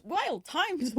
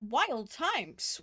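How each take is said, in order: First: Higher, mock-dramatic. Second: Said in the usual way. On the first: Shown as a demonstration. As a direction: echo it up higher for effect.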